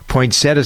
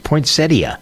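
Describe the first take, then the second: First: The word is said with three syllables. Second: The word is said with four syllables. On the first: The speaker calls it wrong. "some people pronounce it" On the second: The speaker calls it right. "That's the way the dictionary tells us"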